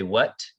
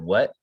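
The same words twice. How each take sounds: First: The final T is clearly pronounced. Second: The final T is dropped, ending in a catch. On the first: "You didn't say" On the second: "you didn't pronounce the T there"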